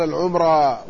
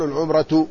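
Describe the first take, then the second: First: العمرة with no t at the end; short-alif ending. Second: العمرة ending in -atu, not long ā; rejected ending. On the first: Lecturer showing the accepted form, العمرة ending in ā. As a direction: say العمرة as al-ʿumrā, ending in open long ā. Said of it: "مع القصر". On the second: Lecturer showing the form not used, العمرة ending in -atu. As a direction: say العمرة as al-ʿumratu, with the t sounded. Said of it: "ولا يقال العمرة". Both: Shown as a demonstration.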